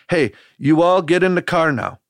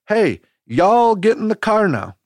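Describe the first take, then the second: First: It is said in a Wisconsin accent. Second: It is said in a Tennessee accent.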